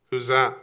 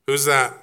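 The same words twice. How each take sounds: The two takes are said the same way.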